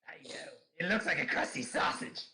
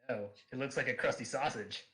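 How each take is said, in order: First: It is said in a put-on Ryuk voice. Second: It is said in a natural reading voice.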